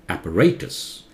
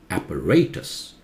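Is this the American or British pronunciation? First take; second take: British; British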